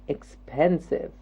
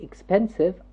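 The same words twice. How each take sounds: First: It is said slowly in three syllables. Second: It is said quickly in two syllables. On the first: The speaker calls it right. "I'm saying expensive. Three syllables" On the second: The speaker calls it wrong. "I'm not saying"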